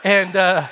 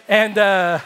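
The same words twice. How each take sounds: The two takes are said the same way.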